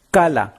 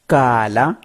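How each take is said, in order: First: "kala" said short and falling; short vowel. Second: "kala" with a long vowel and a rising end. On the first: Teacher contrasting short "kala" for students. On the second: Teacher showing students the long vowel in "kala". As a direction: hold the vowel in "kala" longer. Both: Shown as a demonstration. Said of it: "Voyelle longue".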